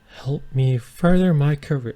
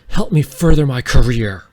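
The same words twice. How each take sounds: First: It is said in a put-on feminine voice. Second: It is said in an ordinary, unaltered voice.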